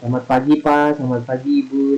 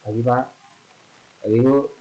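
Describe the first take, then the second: First: The greeting sounds warm and friendly. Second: The greeting sounds curt and unfriendly.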